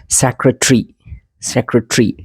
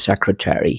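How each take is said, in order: First: सेक्रेटरी squeezed to end in "tree"; British pronunciation. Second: सेक्रेटरी with a full "TERRY" ending; American pronunciation. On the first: Teacher clears up the difference, British pronunciation. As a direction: say सेक्रेटरी as "SEC-ruh-tree". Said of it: "थोड़ा difference थोड़ा clear कर लें". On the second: Teacher tells students what Americans say, American pronunciation. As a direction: say सेक्रेटरी as "SEC-ruh-TERRY". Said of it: "American इसको बोलते हैं". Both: Shown as a demonstration.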